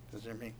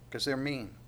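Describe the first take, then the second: First: Much softer, half to himself; quiet amused repeat. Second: Put-on blunt kid's answer, falling at the end; childish retort. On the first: Shown as a demonstration. Preacher repeating the line to the congregation, softly amused. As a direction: echo it under your breath, amused. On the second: Preacher quoting his child self, a mild sulky kid. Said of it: "I go".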